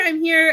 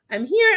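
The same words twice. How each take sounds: First: Said in the usual way. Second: Excited call. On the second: Real, not acted.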